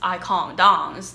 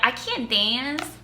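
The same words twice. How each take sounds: First: It is said in a British English accent. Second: It is said in an American English accent. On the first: "most of them are British English accent" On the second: "This is American English"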